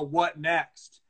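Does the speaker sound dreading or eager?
dreading. It sounds weary and dreading. More bad things are expected to come. The speaker calls it wrong. "the sort of mentality is kind of like, oh"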